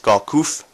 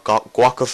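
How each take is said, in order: First: The name is said with a French-sounding accent. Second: The name is said with an English-sounding accent. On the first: This is the name as it really is. "in that very delicious French accent I have, um, that I just produced" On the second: This is how some people say the name. "I believe some people call him"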